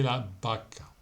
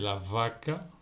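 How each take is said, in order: First: The word vaca starts with a b sound. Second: The word vaca starts with a v sound. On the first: The speaker calls it right. "se dice la vaca" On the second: The speaker calls it wrong. "No se dice la vaca"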